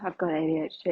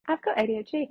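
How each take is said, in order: First: The tone is gloomy and downcast. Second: The tone is upbeat and proud. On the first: Having it is a burden. The speaker calls it wrong. "it's the tone you put on it" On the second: Having it is a strength. The speaker calls it right.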